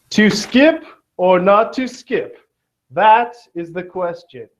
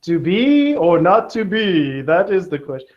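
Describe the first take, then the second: First: Slow, higher mock-dramatic recitation; lightly hammed Shakespearean recital. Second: Lightly hammed Shakespearean recital; mock Shakespeare. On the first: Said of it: "famous quote from Shakespeare". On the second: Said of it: "William Shakespeare said". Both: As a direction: declaim it like a hammy Shakespeare.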